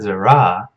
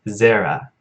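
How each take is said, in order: First: The first vowel sounds like 'o'. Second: The first vowel sounds like 'e'. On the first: The speaker calls it wrong. "I think I just pronounced it wrong twice. It's not Zorah" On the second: The speaker calls it right. "it's Zerah"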